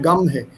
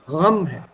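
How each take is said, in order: First: It starts with a plain hard g sound. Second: It starts with a rough sound from the throat. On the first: The speaker calls it wrong. "It's not gum" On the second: The speaker calls it right. "It's pronounced right from the throat"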